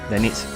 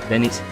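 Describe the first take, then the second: Both takes have the same delivery.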